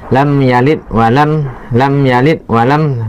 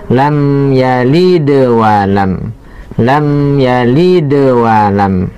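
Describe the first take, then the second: First: The d stops flat without any echo. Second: The d is released with a bouncing echo. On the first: The speaker calls it wrong. "Tidak boleh" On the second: The speaker calls it right. "harus dipantunkan"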